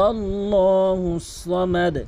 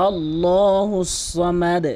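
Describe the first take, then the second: Both takes have the same delivery.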